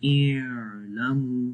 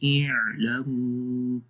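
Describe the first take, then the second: First: The opening throat sound is drawn out too long. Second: The opening throat sound is released with moderate length. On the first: The speaker calls it wrong. "बहुत लंबा भी नहीं करना इलमु तो वो भी गलत है" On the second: The speaker calls it right. "दरमियानी आवाज में पढ़ेंगे"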